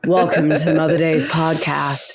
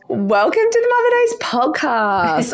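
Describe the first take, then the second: First: It is said in a lower, normal voice. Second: It is said in a very high voice.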